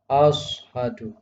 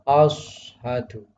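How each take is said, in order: First: The first consonant is a heavy emphatic s. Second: The first consonant is a heavy emphatic s.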